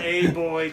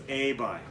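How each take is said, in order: First: Put-on "a boy" with an oy vowel in boy; drawn-out, louder wrong "a boy"; wrong pronunciation. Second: Put-on "a boy" said as "ay bye"; correct pronunciation. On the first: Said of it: "No, this is wrong". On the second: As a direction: model "a boy" with boy rhyming with bye. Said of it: "It's a boy". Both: Shown as a demonstration.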